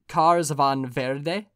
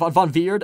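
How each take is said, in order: First: The surname sounds like the Spanish word verde. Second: The surname sounds like the word veered. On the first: The speaker calls it wrong. "I pronounce that more like if like green in Spanish" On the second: The speaker calls it right. "So it's probably veered"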